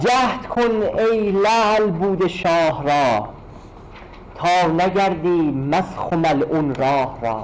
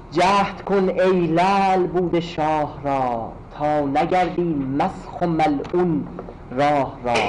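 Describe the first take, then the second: The two takes are said the same way.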